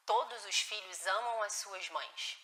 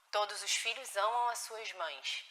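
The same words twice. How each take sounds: First: Much softer and slow, "todos" leaned on; gentle reassurance. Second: Much softer, "amam" leaned on warmly; gentle reassurance. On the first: Mother calming a child who said he doesn't love her, much softer and slow. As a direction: reassure slowly that every child loves their mother. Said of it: "E é necessário falar". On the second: Mother teaching her upset child that children love mothers, much softer. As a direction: soothe the child with the rule. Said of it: "A gente tá educando uma criança". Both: Shown as a demonstration.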